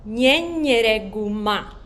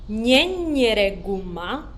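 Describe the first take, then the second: Both takes have the same delivery.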